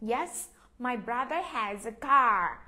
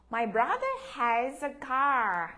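First: Slow, careful "my brother has a car"; slow model reading. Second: Slow and clear "My brother has a car"; slow model reading. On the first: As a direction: read it slowly for pupils to repeat. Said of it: "Mình nhấn mạnh chỗ cái chữ". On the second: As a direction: say it slowly so the class can echo. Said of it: "Các em đọc theo cô". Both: Shown as a demonstration.

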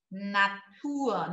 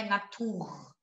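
First: Natur ending in ua; correct Natur. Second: Natur with hard ending r; wrong Natur. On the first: Teacher modelling the right Natur. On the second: Teacher showing the wrong Natur. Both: Shown as a demonstration. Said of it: "Não é Natur".

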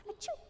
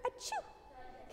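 First: Sneeze. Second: A tiny, breathy, whispered achoo; soft little unvoiced sneeze. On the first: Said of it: "What does that sound like?". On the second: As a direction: sneeze like a butterfly, barely there. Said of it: "Just a small little sneeze". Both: Shown as a demonstration.

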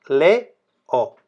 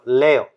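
First: "Le, o" with a clear break between le and o; split into syllables. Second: Said in the usual way. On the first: Shown as a demonstration. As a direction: pull the vowels apart: "Le" then "o". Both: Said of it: "los hiatos van separados".

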